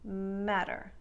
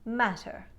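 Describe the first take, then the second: First: The middle T is a soft D sound. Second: The middle T is a light, crisp T. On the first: "turning them into soft D sounds" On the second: "light, crisp T sounds abound in the transatlantic accent"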